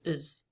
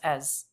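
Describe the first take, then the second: First: The vowel is reduced to a schwa. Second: The vowel is a full open 'ah' sound. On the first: "than a schwa. That would be is" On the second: "I feel like I hear more of an as"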